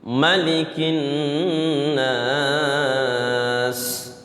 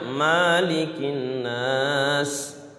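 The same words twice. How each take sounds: First: The first vowel of malik is kept short. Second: The first vowel of malik is drawn out long. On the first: The speaker calls it right. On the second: The speaker calls it wrong.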